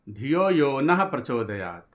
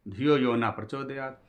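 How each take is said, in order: First: The word ends with a breathy h sound. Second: The word ends without any h sound. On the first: It asks that our intellect be inspired. The speaker calls it right. "नह माने हमारी" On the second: It asks that the intellect not be inspired. The speaker calls it wrong. "विसर्ग न लगा करके, न पे केवल न बोल दिया"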